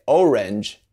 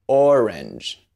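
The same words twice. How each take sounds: First: "orange" opened with "oh", as in oh-range; English long O. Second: "orange" opened with a long "or"; rounded open O. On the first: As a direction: start "orange" on a gliding English "oh". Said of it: "So you don't say". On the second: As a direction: draw out a puckered "aw" starting "orange". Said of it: "you say". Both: Shown as a demonstration.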